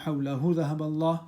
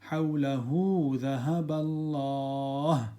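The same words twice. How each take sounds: First: The first word ends with a short vowel. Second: The first word's final vowel is stretched. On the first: The speaker calls it wrong. "So it's not" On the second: The speaker calls it right. "Stretch the ending there"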